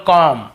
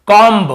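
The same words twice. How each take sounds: First: कॉम ending on m, no b; silent b. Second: कॉम्ब with the final b sounded, louder; wrong pronunciation. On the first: Teacher showing the rule, कॉम with b left silent. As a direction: close the lips on m to finish कॉम. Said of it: "हमें बी को नहीं पढ़ना". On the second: Teacher showing the reading without the rule, कॉम्ब ending in b. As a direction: hit a full "b" ending on कॉम्ब. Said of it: "तो आप इसे क्या पढ़ते?". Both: Shown as a demonstration.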